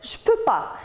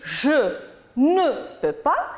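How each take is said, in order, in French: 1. Le mot de négation « ne » est omis. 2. Le mot de négation « ne » est prononcé. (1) "il dit juste" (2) "au lieu de dire"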